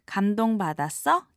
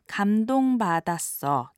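First: The voice rises at the end. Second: The voice falls at the end.

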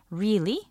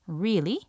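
Both takes have the same delivery.

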